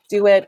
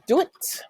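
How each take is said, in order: First: The two syllables are said separately. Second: The two syllables are rolled into one. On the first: "is actually a shortened form of do it" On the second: "where you kind of roll those two syllables together"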